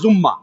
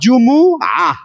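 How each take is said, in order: First: It is said with a doubled m, jumma. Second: It is said with separate syllables, ju-mu-a. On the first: The speaker calls it wrong. "এই ভুল তাদের জীবনে কোনোদিন আর সারে না" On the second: The speaker calls it right. "আসলে কি হবে বলেন তো? জুমুআ"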